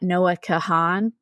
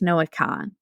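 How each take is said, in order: First: The surname is said with two syllables. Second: The surname is said with one syllable. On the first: The speaker calls it wrong. "I uh s- pronounced his last name wrong" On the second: The speaker calls it right. "Apparently the A is silent"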